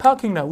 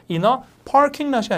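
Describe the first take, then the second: First: "parking" with no R and a long first vowel; R-less British. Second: "parking" with the R sounded; American R. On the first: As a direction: drop the r in "parking lot". ('parking'의 R을 뺀 영국식 발음) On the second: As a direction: say "in a parking lot" with a clear r in "parking". ('parking'의 R을 살린 발음) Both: Shown as a demonstration. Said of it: "아니라 약간 발음이".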